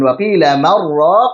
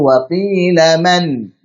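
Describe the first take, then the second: First: The n merges straight into the next word. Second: The n is clear, then a brief stop. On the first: The speaker calls it wrong. "disambung kemudian diidghamkan" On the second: The speaker calls it right. "Nunnya jelas... berhenti sejenak kemudian kita lanjutkan lagi"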